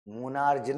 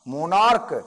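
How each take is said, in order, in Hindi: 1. शब्द ch जैसी आवाज़ पर खत्म होता है। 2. शब्द k की आवाज़ पर खत्म होता है। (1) "मोनार्ज नहीं" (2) "इसके अंत में आ रहा है का"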